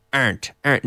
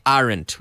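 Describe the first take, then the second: First: Aren't squeezed into one syllable, arnt. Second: Aren't said as ar-ent, two full syllables. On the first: Teacher shows students aren't said as one quick syllable. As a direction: clip aren't down to a single beat, arnt. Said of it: "say that in one syllable". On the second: Teacher to class, aren't said in two syllables. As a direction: spell out aren't slowly as are-ent. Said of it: "We don't normally say aren't". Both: Shown as a demonstration.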